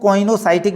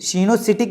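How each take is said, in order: First: The word begins with a 'coy' sound. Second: The word begins with a 'see' sound. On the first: "कुछ लोग इसको कॉइनोसाइटिक भी पढ़ते हैं" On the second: "सीनोसिटिक भी बोलते हैं"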